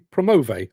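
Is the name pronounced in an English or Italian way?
Italian. The name is said with Italian sounds. "bearing in mind they're Italian, it could be Promove"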